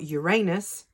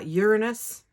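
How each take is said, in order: First: The ending sounds like the word anus. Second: The start sounds like the word urine. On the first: "that sounds like anus" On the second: "that sounds like urine"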